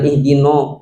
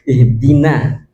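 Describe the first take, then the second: First: The final vowel sounds rounded, like 'o'. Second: The final vowel sounds open, like 'a'. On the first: The speaker calls it wrong. "jangan ih dino, dinosaurus" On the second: The speaker calls it right. "dina juga harus jelas"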